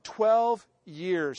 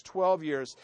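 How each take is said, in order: First: Said in the usual way. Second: Twelve drawn out, slow and weighty; twelve years stressed slowly. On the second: Shown as a demonstration. Preacher to congregation, stressing twelve slowly. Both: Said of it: "folks, twelve years".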